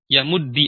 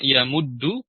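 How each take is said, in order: First: The word ends in an i vowel. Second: The word ends in an u vowel. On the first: "bisa dibaca kasrah" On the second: "bisa dibaca domah"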